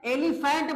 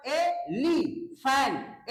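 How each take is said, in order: First: Said in the usual way. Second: एलिफेंट very slowly as ए, ली, फेंट; three separate syllables. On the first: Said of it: "अगर मैं एलिफेंट बोलूं". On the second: Shown as a demonstration. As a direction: split एलिफेंट into three drawn-out beats. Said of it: "ली अलग हो गया".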